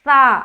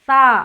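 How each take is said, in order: Both takes have the same delivery.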